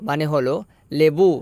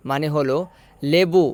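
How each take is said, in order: Both takes have the same delivery.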